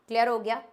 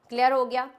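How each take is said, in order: No difference in how they are said.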